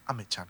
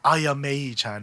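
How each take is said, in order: First: The name starts with two syllables, a-me. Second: The name starts with three syllables, a-ya-mei. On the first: The speaker calls it right. "It's just Ame Chan" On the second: The speaker calls it wrong. "it's not Ayamei Chan"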